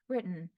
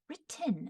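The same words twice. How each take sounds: First: It is said in a plain American accent. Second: It is said in a mid-Atlantic accent. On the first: "as opposed to" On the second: "kind of like a mid-Atlantic accent"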